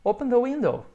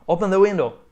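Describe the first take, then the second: First: High, gentle polite ask; polite request. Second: Curt, bossy order; rude command. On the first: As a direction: ask it nicely. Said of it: "Mas se você disser assim". (pedido educado e gentil) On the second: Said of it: "Se você falar assim, é meio mal educado". (ordem seca e mal-educada) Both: Shown as a demonstration.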